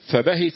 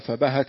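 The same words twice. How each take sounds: First: The h is followed by an i vowel. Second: The h is followed by an a vowel. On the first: "بكسر الهاء" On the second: "بفتحها"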